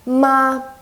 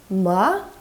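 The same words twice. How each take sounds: First: The pitch stays high and level. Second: The pitch rises from mid to high. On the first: "Steady high pitch and holding just one level" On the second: "the rising tone, which is kind of like you're asking a question"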